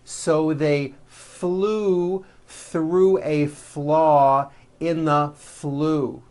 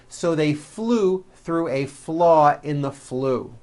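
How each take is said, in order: First: It is said at a slower, steadier pace. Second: It is said at a quicker, faster pace.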